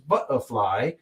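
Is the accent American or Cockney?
Cockney. It is said in a Cockney accent. "the Cockney accent is butterfly"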